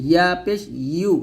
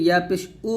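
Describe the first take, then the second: First: "ইয়া পেশ ইউ" ending in a clear y glide, yu; correct yu. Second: "ইয়া পেশ উ" ending in a bare oo without the y; wrong reading demo. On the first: Teacher correcting students, clear y in "ইউ". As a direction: lift mid-tongue to the palate for "ইউ". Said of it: "ইউ উচ্চারণ করবেন". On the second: Teacher showing the common mistake, plain oo for yu. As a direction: drop the y glide, "ইয়া পেশ উ". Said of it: "তো এটা করা যাবে না". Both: Shown as a demonstration.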